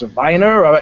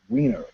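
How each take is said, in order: First: The name starts with a V sound. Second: The name starts with a W sound. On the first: The name is given a German-style reading. The speaker calls it wrong. "So is it pronounced Viner?" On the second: The name is read the way it looks in English. The speaker calls it right. "Nope, Wiener. That's how it's pronounced"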